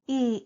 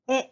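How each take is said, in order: First: A long 'ee' vowel as in even. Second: A short 'eh' vowel as in egg. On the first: The speaker calls it wrong. "not pronounced E like E in the word even" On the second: The speaker calls it right. "like E in the word egg"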